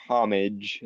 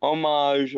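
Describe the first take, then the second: First: "homage" said HOM-ij, English-style; anglicized pronunciation. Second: "Homage" said oh-MAHZH, French-style; French-style pronunciation. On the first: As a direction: say "homage" with a sounded h and -ij ending. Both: Shown as a demonstration. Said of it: "how bad your French to English is".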